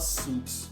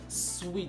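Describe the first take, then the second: First: The word sounds like 'suits', with a 'u' vowel. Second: The word sounds like 'sweet', with a 'w' sound. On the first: The speaker calls it wrong. "it's not suits" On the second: The speaker calls it right. "it's sweet, like the sweet you lick"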